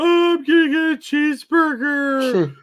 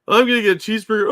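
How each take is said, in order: First: It is said in a mocking put-on voice. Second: It is said in his normal voice.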